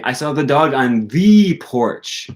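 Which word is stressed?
second the. The stress falls on the second the. It was a special, particular porch. "Not just any porch, the porch"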